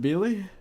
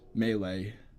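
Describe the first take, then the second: First: The first syllable does not sound like 'May'. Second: The first syllable sounds like 'May'. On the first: The speaker calls it wrong. "Instead of Melee?" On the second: The speaker calls it right. "like, the month of May, and then, like, Lay is in Lay's chips"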